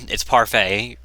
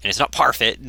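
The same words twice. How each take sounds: First: Parfait said as "par-FAY", silent t; correct pronunciation of Parfait. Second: Parfait said as "PAR-fit", with a sounded final t; wrong pronunciation of Parfait. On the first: Correcting how the title is said, Parfait as "par-fay". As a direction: end Parfait in a long "fay". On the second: Correcting how the title is said, Parfait as "par-fit". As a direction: end Parfait in a short "fit". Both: Shown as a demonstration. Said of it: "it's not pronounced Parfait".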